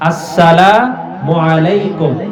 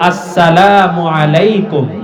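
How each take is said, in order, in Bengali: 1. অভিবাদনটি শুরু হয় পূর্ণ প্রথম ধ্বনি দিয়ে। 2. অভিবাদনটি শুরু হয় পূর্ণ প্রথম ধ্বনি দিয়ে।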